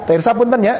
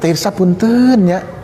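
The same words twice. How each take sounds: First: It is said with flat, ordinary intonation. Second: It is said with warm, expressive intonation. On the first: "Saya minta izin punten kepada beliau" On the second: "tapi begini"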